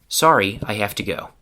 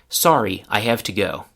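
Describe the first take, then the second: Both takes have the same delivery.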